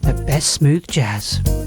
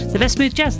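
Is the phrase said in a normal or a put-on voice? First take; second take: put-on; normal. First: It is said in a special put-on voice. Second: It is said in an ordinary everyday voice. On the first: "we love the way you do that" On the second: "in your normal voice"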